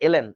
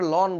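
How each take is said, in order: First: It is read as two letter names, el-en. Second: It is read as one syllable, lon. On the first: The speaker calls it right. "উচ্চারণটা হচ্ছে এলএন, এভাবে বলতে হয়" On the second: The speaker calls it wrong. "Actually উচ্চারণটা লন না"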